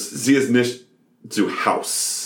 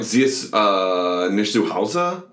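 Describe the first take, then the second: First: "Sie ist nicht zu Haus" in flat American sounds, "Haus" clipped to one syllable; imitating an actress saying "Sie ist nicht zu Haus" like an American; no German accent. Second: "Sie ist nicht zu Hause" with a German "ich" sound in "nicht" and a final "e" in "Hause"; demonstrating the right German for "Sie ist nicht zu Hause"; proper German. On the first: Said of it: "no accent to it or anything". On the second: Shown as a demonstration. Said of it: "would be the right way you say it".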